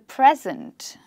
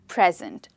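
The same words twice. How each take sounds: First: The stress is on the first syllable. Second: The stress is on the second syllable. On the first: It means the time going on now. "with the stress on the first syllable" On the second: It means to offer something to somebody. "the stress is on the second syllable"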